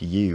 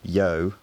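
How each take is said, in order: First: The word is said in a standard pronunciation. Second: The word is said in a West Midlands pronunciation.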